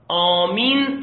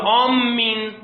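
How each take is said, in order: First: The m sound is short and single. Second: The m sound is doubled and held longer. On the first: The speaker calls it right. "میم تشدید نداره" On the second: The speaker calls it wrong. "میم رو تشدید میده"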